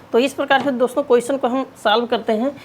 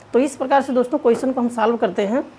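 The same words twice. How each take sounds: No difference in how they are said.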